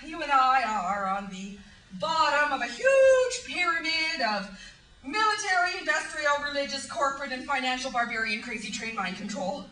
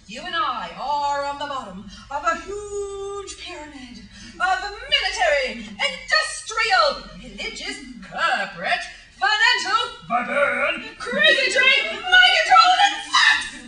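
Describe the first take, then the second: First: It is said at a normal, quick pace. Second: It is said slowly, word by word.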